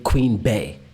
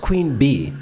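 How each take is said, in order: First: The second word ends with an 'ay' vowel. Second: The second word ends with an 'ee' vowel. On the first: The speaker calls it wrong. "Why are we putting in an A sound?" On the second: The speaker calls it right. "It's Queen Bee"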